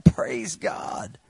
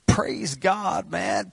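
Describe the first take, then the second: First: Unvoiced whisper of praise; a hushed, private praise. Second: An inner shout of praise; mock shout of praise. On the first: Shown as a demonstration. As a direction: breathe it out in a whisper. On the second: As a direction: let the heart shout it out. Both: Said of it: "your heart is shouting".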